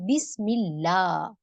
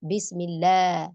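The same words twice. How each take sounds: First: The 'la' has a clear open 'a' vowel. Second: The 'la' vowel leans toward an 'e' sound. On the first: The speaker calls it right. "Correction क्या होगा बिस्मिल्लाह, ला ज़बर की आवाज़" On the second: The speaker calls it wrong. "बिस्मिल्लाह तो गलत है ना?"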